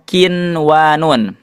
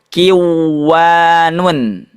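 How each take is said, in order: First: The n is pronounced clearly before the w. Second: The n is merged into the following w. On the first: The speaker calls it right. "dibacanya kinwanun" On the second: The speaker calls it wrong. "tidak dibaca kiwanun"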